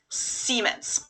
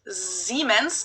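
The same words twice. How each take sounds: First: It begins with a hissing S sound. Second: It begins with a buzzing Z sound. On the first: This is how English speakers say it. "English speakers pronounce it with a voiceless S" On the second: This is how Germans say it. "Germans pronounce it with a voiced S, which would be a Z in English"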